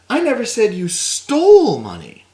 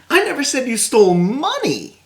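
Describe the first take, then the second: First: The word stole carries the stress. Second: The word money carries the stress. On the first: The money may have been obtained legitimately. "Maybe you came into it" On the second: Something other than money was stolen. "well you stole something, but it just it wasn't cash value"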